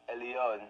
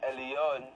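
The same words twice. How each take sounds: Both takes have the same delivery.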